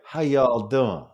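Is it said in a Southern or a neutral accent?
Southern. It is said in a Southern accent.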